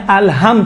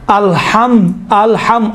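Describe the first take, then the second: First: "الحم" with a light, plain h in place of ḥ; small ha. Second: "الحم" with a strong pharyngeal ḥ from the throat; big ha. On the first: Teacher showing the small ha that changes meaning, light h. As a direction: soften the ح of "الحم" to an ordinary h. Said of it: "چھوٹے ہا کے ساتھ الگ معنی ہے". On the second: Teacher showing the big ha, pharyngeal ḥ. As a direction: give "الحم" the heavy Arabic ح. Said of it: "بڑا جو ہا ہے". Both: Shown as a demonstration.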